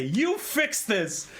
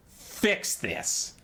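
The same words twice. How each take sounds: First: Higher, drawn-out creature voice; slow Skaven demand. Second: Breathy unvoiced rat-man command; whispered Skaven hiss. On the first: Retold or imitated. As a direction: stretch each word like a pushy rat-man. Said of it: "And they say". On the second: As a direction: hiss the order like a sly rat creature. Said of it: "and they say".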